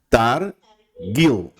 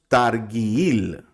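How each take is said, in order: First: The g sound is hard and strong. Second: The g sound is soft, not hard. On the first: The speaker calls it right. "La taf y la gimel suenan fuerte" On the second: The speaker calls it wrong. "nosotros no decimos targuil"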